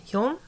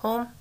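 First: Hulme said with a rising, doubtful tone; trying out Hulme as a question; unsure pronunciation. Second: Hulme said again as /hoʊ̃m/, tried once more; a second attempt at Hulme; second try at the name. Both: Shown as a demonstration. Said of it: "Am I saying that right?".

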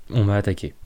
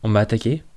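First: «On m'a attaqué.» read as a flat statement, falling at the end; statement tune. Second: «On m'a attaqué?» read as a question, rising on m'a; questioning tune. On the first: Elana stating the attack to Nilem, falling tune. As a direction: let «On m'a attaqué.» drop, a plain fact. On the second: Narrator reading «On m'a attaqué?» wrongly as a question. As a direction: lift the end of «On m'a attaqué?» as if asking. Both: A narrator's reading. Repeated line, question then statement.

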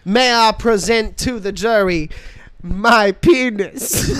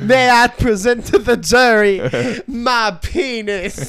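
First: Honeyed Southern lawyer drawl; slow Southern courtroom drawl through laughs. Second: Loud, slow Southern courtroom drawl; Southern lawyer drawl. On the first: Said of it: "like, a Southern defense lawyer, he's like". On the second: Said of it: "like, a Southern defense lawyer". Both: Pretend.

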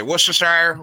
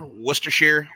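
First: "Worcestershire" as WUSS-ter-shy-er; "Worcestershire" with a long i in the last syllable; shire ending. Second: "Worcestershire" as WUSS-ter-sheer; "Worcestershire" with an ee sound in the last syllable; sheer ending. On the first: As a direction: end "Worcestershire" on a full "shire", rhyming with fire. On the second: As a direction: end "Worcestershire" on "sheer", rhyming with beer. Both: Shown as a demonstration. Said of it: "you can say Worcestershire".

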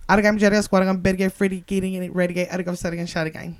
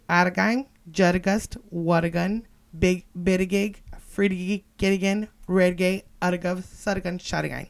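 First: Said in the usual way. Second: Slow, separated words with gaps. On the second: Shown as a demonstration. Reading the shirt in double Dutch, word by word. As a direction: break the coded phrase into single words.

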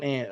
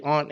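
First: Second "aunt" as ANT, like the insect; flat-vowel aunt. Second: First "aunt" as AHNT, open ah; broad aunt. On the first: Contrasting the two words, "aunt" said like "ant". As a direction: say "aunt" to rhyme with "pant". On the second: Contrasting the two words, "aunt" with a broad ah. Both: Shown as a demonstration. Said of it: "differentiate between the two".

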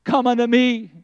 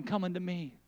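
First: Louder, firm invitation; ringing call. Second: Hushed, gentle invitation; soft call. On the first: Preacher calling someone forward, full voice. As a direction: call it out with force now. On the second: Preacher inviting someone to come, hushed. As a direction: call them in barely above a murmur. I hear the voice of God calling. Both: Acted.

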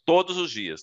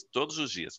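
First: Todos os dias said higher and louder, stressing todos; a forceful first todos os dias; emphatic repeat. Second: Todos os dias repeated much softer; a quiet echo of todos os dias. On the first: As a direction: punch todos os dias to drive it home. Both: Shown as a demonstration. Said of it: "Primeiro ponto".

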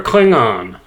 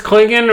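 First: Klingon said as KLING-ON; full "on" ending. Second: Klingon said as KLING-in; reduced second syllable. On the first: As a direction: give Klingon a clear, open "on" at the end. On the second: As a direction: say Klingon with a weak "in" ending. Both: Shown as a demonstration. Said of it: "Is it pronounced Klingon or Klingon".

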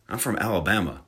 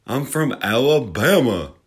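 First: Said in the usual way. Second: Slow, hammed-up Alabama drawl; thick mock-Southern drawl, drawn out; exaggerated southern drawl. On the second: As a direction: lay the Southern accent on thick, stretching Alabama. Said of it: "I have this southern drawl".

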